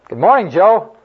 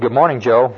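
First: The greeting is shouted loudly. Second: The greeting is said at normal volume.

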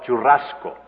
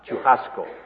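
First: The double R is a rolled, trilled R. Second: The double R sounds like a harsh, breathy H. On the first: This is the Spanish pronunciation. "the trilled R" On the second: This is the Portuguese pronunciation. "a hard aspirated H sound"

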